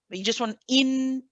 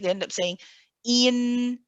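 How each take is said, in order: First: The opening vowel is kept short. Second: The opening vowel is drawn out long. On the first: The speaker calls it right. "keep it one count" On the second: The speaker calls it wrong. "you don't prolong the kasra"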